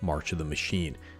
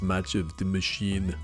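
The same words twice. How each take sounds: First: It is said in a plain natural voice. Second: It is said in a put-on imitation voice.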